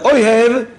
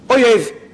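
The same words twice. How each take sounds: First: The middle consonant is an h sound. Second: The middle consonant is a y sound. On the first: It means one who loves. The speaker calls it right. "you love Klal Yisrael" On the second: It means enemy. The speaker calls it wrong. "it may come out as oyev, enemy"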